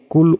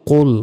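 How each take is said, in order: First: "কুল" with light k and narrow "oo"; Bengali-style "kul", not the throaty q; wrong thin kul. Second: "কুল" thick and rounded, like "qol"; full-mouthed Arabic "qol"; heavy qol. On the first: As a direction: punch "কুল" as the mistaken "kul". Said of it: "এখানে কুল উচ্চারণ হবে না". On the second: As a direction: stress "কুল" with a back-of-throat q. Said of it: "কুল মোটাভাবে উচ্চারণ হবে". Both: Shown as a demonstration.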